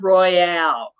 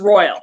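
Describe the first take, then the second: First: It is said as roy-AHL, stressing the end. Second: It is said like the English word royal. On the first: The speaker calls it wrong. "but it's not Royale" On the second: The speaker calls it right. "it's Royal"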